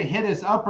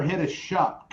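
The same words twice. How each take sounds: First: Said in the usual way. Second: "hit us shup", the SH run into "up". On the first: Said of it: "did you say hit us up or hit us shup". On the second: Shown as a demonstration. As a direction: slur "us up" into "us shup". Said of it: "if shup is a Canadian word".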